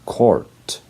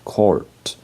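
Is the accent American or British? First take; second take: American; American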